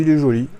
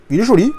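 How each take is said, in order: First: Said in the usual way. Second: Il est joli, high and loud; delighted. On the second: Real, not acted. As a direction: burst out with il est joli, thrilled. Admiring the steelbook, repeated.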